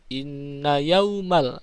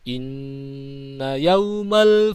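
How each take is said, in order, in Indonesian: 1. Nun ganda dipotong pendek, langsung lanjut. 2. Nun ganda ditahan, disengaukan, selama tiga ketukan. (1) "jangan langsung" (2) "ditahan dulu tiga harokat"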